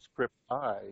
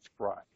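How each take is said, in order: First: It is said in full as two words. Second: It is run together as one syllable. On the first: The speaker is an outsider to the field. The speaker calls it wrong. "you're part of the club if you don't say script I" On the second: The speaker is an insider to the field. The speaker calls it right. "you're part of the club if you say scribe"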